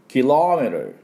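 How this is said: It is said with an English accent. The speaker calls it right. "キロのところが強いんですね"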